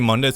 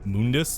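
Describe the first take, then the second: First: The first syllable does not sound like 'moon'. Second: The first syllable sounds like 'moon'. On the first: The speaker calls it right. "that's the actual correct pronunciation" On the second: The speaker calls it wrong. "like the moon"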